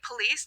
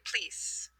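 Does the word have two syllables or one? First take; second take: two; one. First: The word is said with two full syllables. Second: The first vowel is dropped, giving one syllable. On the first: This is the standard pronunciation. "instead of saying police" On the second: Some speakers in England now say it this way. "They're dropping that O"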